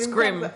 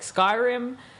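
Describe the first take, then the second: First: It is said with one syllable, scrim. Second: It is said with two syllables, sky-rim. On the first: The speaker calls it wrong. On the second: The speaker calls it right.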